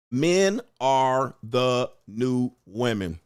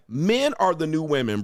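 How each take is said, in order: First: Drawn-out "Men are the new women" said slowly, words stretched. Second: Said in the usual way. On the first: Shown as a demonstration.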